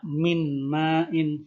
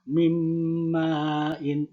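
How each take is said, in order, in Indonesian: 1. Bunyi n diucapkan dengan jelas sebelum m. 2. Bunyi n menyatu dengan m yang mengikutinya. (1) "Tidak min ma'in" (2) "Bunyinya bunyi huruf M yang jelasnya ya"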